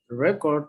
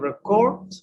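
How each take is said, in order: First: The stress is on the first syllable. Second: The stress is on the second syllable. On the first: It is used as a noun. "the stress is in record" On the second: It is used as a verb. "To record, the stress is in court"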